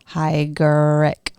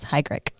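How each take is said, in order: First: The name is said slowly, syllable by syllable. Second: The name is said quickly as one unit. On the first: "if you want to sound it out" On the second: "say it fast"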